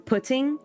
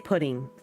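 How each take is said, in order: First: The middle consonant is a crisp, clear T. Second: The middle consonant is a soft D-like tap. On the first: "you don't take the time to say pudding or putting" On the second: "You just say pudding"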